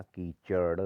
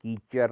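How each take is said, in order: First: कीचड़ ending in a curled-tongue d; correct ड़. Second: कीचड़ ending in r, "keechar"; wrong r. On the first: Teacher correcting it, कीचड़ with retroflex ending. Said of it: "अड़ा आएगा". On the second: Teacher showing the error, कीचड़ with r ending. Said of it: "नहीं होता". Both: Shown as a demonstration.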